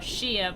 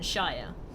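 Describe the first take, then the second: First: The word is said like sheer. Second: The word is said like shy-er. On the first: "most um, counties are shire rather than" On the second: "rather than shire"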